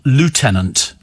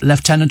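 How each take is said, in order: First: The first syllable sounds like 'loo'. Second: The first syllable sounds like 'left'. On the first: This is the American pronunciation. "in America" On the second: This is the British pronunciation. "How do you pronounce lieutenant in British and American English?"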